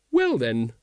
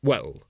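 First: Lady's awkward parting. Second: Low, falling man's voice; man's awkward reply. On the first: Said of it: "she said". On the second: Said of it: "said Vimes". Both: A narrator's reading.

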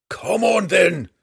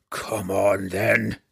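First: A high, loud battle roar; stubborn dwarf roaring a dare. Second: A mild mock roar in the dwarf voice; injured dwarf daring drow and panther. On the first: Acted. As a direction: bellow the challenge at the monster. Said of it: "the stubborn dwarf roared". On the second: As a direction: challenge them both, held back. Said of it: "Bruner roared at them both".

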